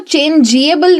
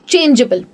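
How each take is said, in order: First: An extra vowel is sounded before 'able'. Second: No extra vowel is sounded before 'able'. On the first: The speaker calls it wrong. "मैं उसको चेंजिएबल नहीं बोलती हूं" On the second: The speaker calls it right. "मैं कहती हूं चेंजेबल"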